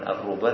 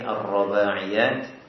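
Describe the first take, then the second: First: The vowel after the r is u. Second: The vowel after the r is a. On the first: The speaker calls it wrong. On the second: The speaker calls it right.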